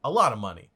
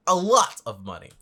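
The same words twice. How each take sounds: First: Said in the usual way. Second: "lot" punched loud in "A lot of money"; stress on "lot". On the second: Real, not acted. Reactor marvelling at forty million, "lot" stressed loudly. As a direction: hit the word "lot" hard and loud. Repeats it with added emphasis.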